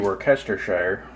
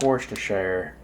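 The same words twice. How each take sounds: First: The word is said the way it is spelled. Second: The word is said in a shortened form. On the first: The speaker calls it wrong. "It looks like it should be" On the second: The speaker calls it right. "is the proper pronunciation"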